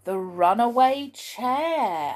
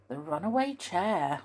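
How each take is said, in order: First: Slow, high, announced chapter name; chapter title. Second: Said in the usual way. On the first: Shown as a demonstration. Reader announcing the chapter to children, slow and grand. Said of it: "announcing chapter title". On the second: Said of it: "repeating title in normal voice".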